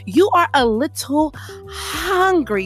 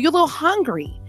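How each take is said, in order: First: The H in hungry is strongly breathed out. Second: The H in hungry is said normally.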